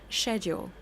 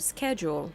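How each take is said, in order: First: The word begins with an sh sound. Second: The word begins with an sk sound. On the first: The speaker calls it wrong. "they will always be like" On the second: The speaker calls it right. "S C H in English is not pronounced sh, it's sk"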